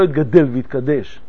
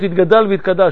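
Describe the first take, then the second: First: The words have the Hebrew vowel forms. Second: The words have the Aramaic vowel forms. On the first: It gives up strict grammar to hint at a verse. The speaker calls it wrong. "ולא" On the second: It follows the grammar of the Aramaic text. The speaker calls it right. "הקדיש הוא בארמית, זה צריך להיות"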